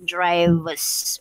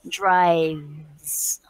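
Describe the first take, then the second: First: An extra vowel sound follows the v. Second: No extra vowel sound follows the v. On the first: The speaker calls it wrong. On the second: The speaker calls it right.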